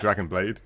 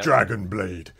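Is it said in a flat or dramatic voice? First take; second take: flat; dramatic. First: It is said in a plain, flat voice. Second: It is said in a dramatic, special voice.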